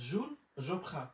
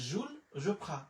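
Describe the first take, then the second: Both takes have the same delivery.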